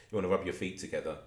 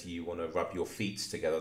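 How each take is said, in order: First: Said in the usual way. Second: "feet" said as "feets", with an extra s; plural "feets". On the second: Retold or imitated. Host repeating Johnny's odd plural, "feet" pronounced "feets". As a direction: add an s to the end of "feet". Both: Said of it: "there was plural in there".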